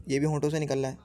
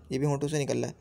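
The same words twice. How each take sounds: The two takes are said the same way.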